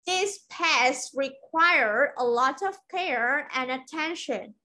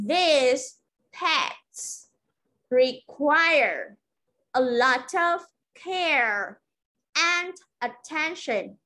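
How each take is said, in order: First: Slow, connected model sentence; teacher reading the full sentence for learners; whole-sentence model. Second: Slow model sentence with pauses after each chunk; deliberate teacher's dictation, each chunk falling; phrase-by-phrase drill. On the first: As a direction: run the chunks together, still slow and careful. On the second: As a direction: say it piece by piece for learners to repeat. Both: Shown as a demonstration.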